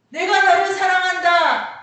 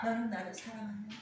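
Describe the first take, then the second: First: Very loud, high-pitched declaration of love; preacher's ringing cry; emphatic proclamation. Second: Soft, usual-pitched statement; quiet second half; subdued answer. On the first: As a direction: proclaim it at full force. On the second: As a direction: let the force drop away completely. Answering half after the proclamation. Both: Acted.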